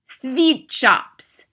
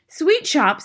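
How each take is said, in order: First: Shouting. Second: Crying out. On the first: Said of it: "shouted the Grand High Witch". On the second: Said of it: "they cried". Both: Acted.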